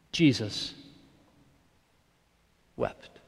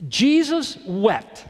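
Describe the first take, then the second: First: Jesus wept, dropped low and soft; a quiet, grave reading; hushed and slow. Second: Jesus wept, higher and drawn out; a raised, slow proclamation; slow and lifted. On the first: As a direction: let Jesus wept fall very softly. Scripture line, then reflection. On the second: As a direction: stretch out Jesus wept, high and deliberate. Quoting the famous verse. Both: Shown as a demonstration.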